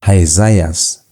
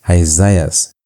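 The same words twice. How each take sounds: The two takes are said the same way.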